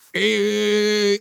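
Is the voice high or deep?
deep. It is said in a deep voice.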